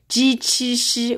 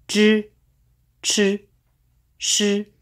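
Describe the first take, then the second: First: The vowel is a clear 'ee' sound. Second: The vowel is an r-like buzz, not 'ee'. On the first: The speaker calls it wrong. "We cannot do like that" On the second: The speaker calls it right. "we just make this disappear"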